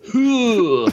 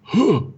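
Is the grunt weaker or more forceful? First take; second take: more forceful; weaker. First: The grunt is heavier and more forceful. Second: The grunt is lighter and less forceful.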